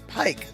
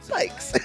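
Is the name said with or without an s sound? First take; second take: without; with. First: The name is said without a final s sound. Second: The name is said with a final s sound. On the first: The speaker calls it right. "people need to know Pike" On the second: The speaker calls it wrong. "not Pikes"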